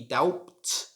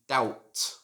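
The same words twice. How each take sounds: First: The B is sounded. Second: The B is silent. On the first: The speaker calls it wrong. "so it shouldn't be doubt" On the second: The speaker calls it right. "Should just be doubt"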